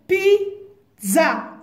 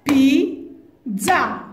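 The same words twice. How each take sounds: First: Pizza said syllable by syllable for tapping, pi and za; syllable-tapped pizza. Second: Pizza said again in two clear beats, pi then za; syllable-tapped pizza. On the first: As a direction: clap out Pizza in two beats. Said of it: "Tapez les syllabes". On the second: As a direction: tap Pizza out slowly. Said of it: "Deux syllabes". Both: Shown as a demonstration.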